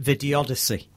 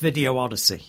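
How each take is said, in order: First: The two words merge into one word. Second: The two words are said separately. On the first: The speaker calls it wrong. "I just couldn't help but call it Videodyssey" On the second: The speaker calls it right. "But it's Video Odyssey"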